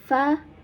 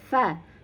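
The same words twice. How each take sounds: First: The first sound is an f made with teeth. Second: The first sound is an f made with teeth.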